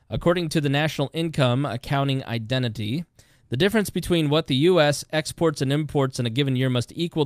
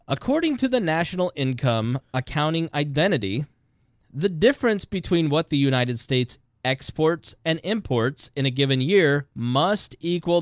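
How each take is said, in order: First: It is read at a fast pace. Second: It is read at a slow pace.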